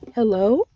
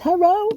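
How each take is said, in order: First: It is said very slowly and drawn out. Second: It is said at a normal, quicker pace.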